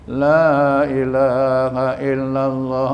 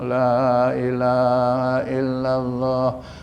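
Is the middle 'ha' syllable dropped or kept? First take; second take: kept; kept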